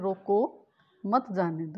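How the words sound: There is a pause right after 'roko'. Stop the person; do not let them go. "यानी उसको रोक लो, जाने नहीं देना है।"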